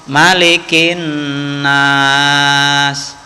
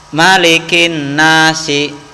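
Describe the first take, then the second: First: The phrase ends on a consonant, vowel dropped. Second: The phrase ends with a short final vowel. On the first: The reading stops here. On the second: The reading continues without stopping.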